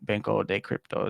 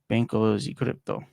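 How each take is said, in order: First: The word 'de' is said with a plain d. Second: The word 'de' is said with a j sound. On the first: The speaker calls it wrong. "they wouldn't say" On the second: The speaker calls it right. "That's why I keep saying G because inside of Portuguese"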